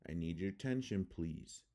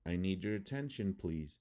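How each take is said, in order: First: "attention" with weak first A, uh-TEN-shn; schwa reduction. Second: Said in the usual way. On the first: Shown as a demonstration. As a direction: swallow the unstressed vowels in "attention". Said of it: "how it would sound in English". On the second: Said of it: "I'm gonna read the word".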